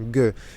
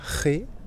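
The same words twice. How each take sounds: First: The sound is a hard g, not from the throat. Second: The sound is a guttural one from the throat. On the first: "devant les autres lettres, on le prononce G" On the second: "Se pronuncia G delante de E et I... c'est le son R. R qui est guttural, qui vient de la gorge"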